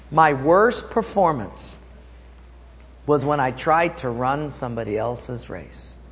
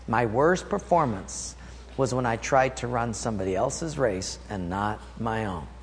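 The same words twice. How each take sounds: First: Said in the usual way. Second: Quiet repeat. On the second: Shown as a demonstration. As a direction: drop the voice to drive it home. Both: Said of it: "Let me say that again".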